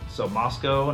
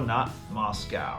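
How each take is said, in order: First: It is said the local Idaho way. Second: It is said like the Russian capital. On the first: It names the town in Idaho. The speaker calls it right. "Moscow, Idaho. So Moscow" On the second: It names the city in Russia. The speaker calls it wrong.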